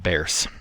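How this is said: It has a d sound and a final s sound. "the th comes out as duh, and the uh, z at the end of Bears is uh, voiceless instead"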